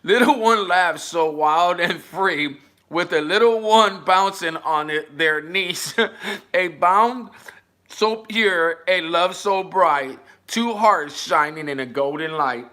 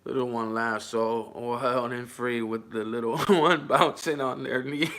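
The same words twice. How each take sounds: First: Reading it again. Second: Soft, lower sing-song poem reading, laughing through it. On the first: Rereading the comment poem to chat. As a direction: read it once more, livelier. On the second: Reading a sappy comment poem aloud with a giggle. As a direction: read the sweet poem, giggling. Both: Shown as a demonstration. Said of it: "I'm gonna read it again".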